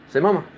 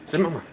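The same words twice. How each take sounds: First: Firm command. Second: Said in the usual way. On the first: Real, not acted. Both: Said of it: "Come on, you can do it better".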